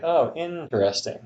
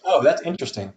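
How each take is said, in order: First: INTERESTING drawn out and higher, "innn-teresting"; slow interesting. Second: INTERESTING run together as "in-tresting"; casual interesting. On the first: Host shows talking slow to somebody, drawn out. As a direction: slowly stretch the first syllable of INTERESTING. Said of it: "if I was just talking slow to somebody". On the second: Host shows co-host an everyday reaction, syllable dropped. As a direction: lightly say "in-tresting", three syllables. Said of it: "I say it different ways depending on different situations". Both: Shown as a demonstration.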